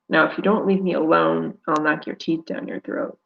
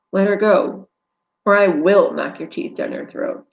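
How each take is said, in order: First: Hissed threat. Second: Firm, loud threat; angry threat. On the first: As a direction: hiss it through the teeth. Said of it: "I hiss". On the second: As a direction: threaten him. Rescuer threatens the attacker. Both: Acted.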